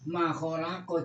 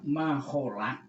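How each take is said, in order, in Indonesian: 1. Kata ini diakhiri vokal setelah konsonan. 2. Kata ini diakhiri konsonan mati. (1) "harus dibaca makholako, jangan diwakofkan pada huruf kofnya ini" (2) "Kok kofnya ini disukun, diwakofkan"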